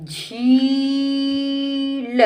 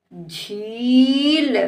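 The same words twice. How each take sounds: First: झील with very long level झी, then ल; sounded out. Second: झील joined, shorter rising ee; blended word. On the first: Teacher sounds out the word for a child, stretched. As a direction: stretch झील apart slowly. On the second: Teacher blends the word for a child, joined up. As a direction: run झील into one word. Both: Shown as a demonstration. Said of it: "इस तरह से बेटा हम शब्दों को".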